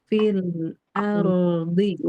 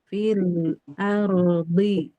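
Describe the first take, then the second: No difference in how they are said.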